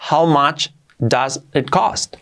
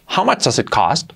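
First: How much does it cost? said slowly, each word clear; slow, careful teacher read of How much does it cost?; slow model sentence. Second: Said in the usual way. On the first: Shown as a demonstration. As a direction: spell it out slowly for learners. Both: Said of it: "Lo correcto sería".

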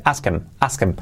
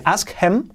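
First: HIM without H, "askem", lower; omitted H. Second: HIM keeps its H, "ask hem"; H pronounced. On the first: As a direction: run ask him into one word, "askem". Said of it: "o se omite". (him sin H, "askem", enlazado) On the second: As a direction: model ask him as two separate words. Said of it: "Puedes decir ask him". (him con la H pronunciada) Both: Shown as a demonstration.

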